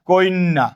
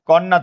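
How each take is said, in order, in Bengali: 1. যুক্ত ব্যঞ্জনের আগে একটি অতিরিক্ত 'i' স্বরধ্বনি আসে। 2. যুক্ত ব্যঞ্জনের আগে কোনো অতিরিক্ত স্বরধ্বনি আসে না। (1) "রস্বইকার আসছে" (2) "কন্যা থেকে"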